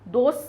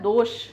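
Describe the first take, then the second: First: The last consonant is a plain s sound. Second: The last consonant is an sh sound. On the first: The speaker calls it wrong. "दोष नहीं होता" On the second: The speaker calls it right. "यहां श आता है"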